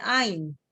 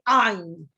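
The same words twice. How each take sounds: First: Said in the usual way. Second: Guttural Hebrew "ain" as Israelis avoid. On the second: Shown as a demonstration. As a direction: start "ain" far back in the throat. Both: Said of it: "I don't say ain, I say ain".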